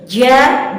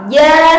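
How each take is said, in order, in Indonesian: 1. Diucapkan dengan napas yang keluar bersamanya. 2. Diucapkan dengan jernih tanpa napas yang tercampur. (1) "Maka itu adalah pelafalan yang kurang tepat" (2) "tanpa ada suara seperti yang tadi telah kita contohkan"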